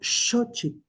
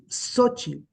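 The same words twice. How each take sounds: First: The word begins with a sh sound. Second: The word begins without a sh sound. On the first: It is said this way in Nahuatl. "y no" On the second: Spanish speakers say it this way. "la mayoría de las personas hispanohablantes pronuncian"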